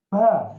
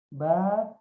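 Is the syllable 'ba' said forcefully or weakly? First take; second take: forcefully; weakly. First: The syllable is said with exaggerated force. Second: The syllable is said too weakly and softly. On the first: "jangan sampai kita mengucapkan huruf ba ini berlebih-lebihan" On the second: "atau terlalu lemah juga"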